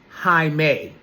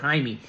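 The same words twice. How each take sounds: First: The name is said as hi-may. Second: The name is not said as hi-may. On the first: The speaker calls it right. "it's pronounced Jaime. H I dash M A Y" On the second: The speaker calls it wrong. "I said Jaime"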